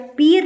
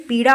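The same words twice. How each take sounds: First: पीर with plain r in place of flapped ṛ; wrong pronunciation. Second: Said in the usual way. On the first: Shown as a demonstration. Teacher shows the wrong word, with plain r. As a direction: say पीर with a simple r. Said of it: "पीर नहीं". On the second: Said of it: "पीड़ा होता है".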